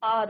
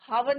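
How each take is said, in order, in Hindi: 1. शब्द सीधे स्वर से शुरू होता है। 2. शब्द की शुरुआत एक बोली जाने वाली h ध्वनि से होती है। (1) "आर होता है, एच इज योर साइलेंट" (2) "हावर नहीं होता बच्चों"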